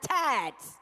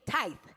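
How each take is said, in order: First: It is said with a 'd' sound and final 's'. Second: It is said with a 'th' sound, no final 's'. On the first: The speaker calls it wrong. "It's not tides" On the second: The speaker calls it right. "It's T I T H E"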